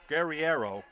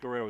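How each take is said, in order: First: The name has an 'ee' sound after the r. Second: The name has no 'ee' sound after the r. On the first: The speaker calls it right. "it's Guerre- Guerriero" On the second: The speaker calls it wrong. "don't say Guerrero"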